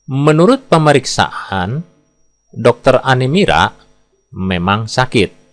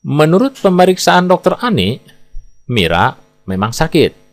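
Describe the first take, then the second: First: The pause comes right after "pemeriksaan". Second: The pause comes right after "Ani". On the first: The doctor named Anemira is the one who is sick. "Bila kita baca dengan jeda seperti ini, maka kita dapat menafsirkan bahwa yang sakit adalah dokter Anemira" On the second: A doctor named Ani did the examining and Mira is sick. "bila kita baca dengan jeda seperti ini, maka kita bisa menafsirkan yang memeriksa bernama dokter Ani, yang sakit adalah Mira"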